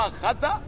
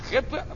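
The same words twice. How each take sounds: First: The first vowel is a, with a vowel after t. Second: The first vowel is i, with no vowel after t. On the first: It means the opposite of correct. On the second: It means a sin.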